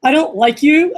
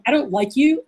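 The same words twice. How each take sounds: First: Higher, brighter smile in the voice; smiling voice. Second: Mildly mean, serious tone. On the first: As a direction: say the dislike through a big smile. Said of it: "With a, with a big smile". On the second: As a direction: state the dislike seriously, without a smile. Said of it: "but in a mean voice". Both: Shown as a demonstration.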